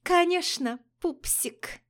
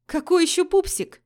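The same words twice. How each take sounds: First: Мило пропела. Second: Loud, high disbelieving; incredulous outburst on КАКОЙ; возмущённое удивление. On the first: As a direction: coo it sweetly, teasing. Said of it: "и мило пропела". (Алина мужчине, мило нараспев) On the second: Героиня возмущённо переспрашивает. (изумлённо и громко) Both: Acted.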